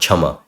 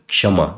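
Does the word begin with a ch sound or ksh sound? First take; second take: ch; ksh. First: The word begins with a ch sound. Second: The word begins with a ksh sound. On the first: The speaker calls it wrong. "this is not chama" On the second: The speaker calls it right. "this is kshama"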